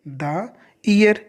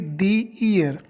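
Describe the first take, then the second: First: 'The' is said with a short 'thuh' vowel. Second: 'The' is said with a long 'thee' vowel. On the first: The speaker calls it wrong. "तो यहाँ पे द year नहीं बोलेंगे" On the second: The speaker calls it right. "क्या बोलेंगे, दी year"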